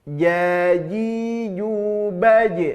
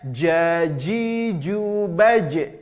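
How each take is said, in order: First: The j sounds soft, from mid-tongue. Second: The j sounds hard, from the tongue tip. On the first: The speaker calls it right. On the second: The speaker calls it wrong.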